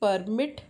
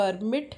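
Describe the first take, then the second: First: The stress is on the second syllable. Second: The same.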